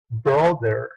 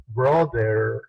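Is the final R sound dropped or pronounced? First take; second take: pronounced; pronounced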